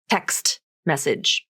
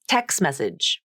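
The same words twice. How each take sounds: First: The T of text is fully pronounced. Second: The T of text is dropped. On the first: "pronounce the word text with its full pronunciation" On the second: "The rule of three happens in phrases too, when linking words together"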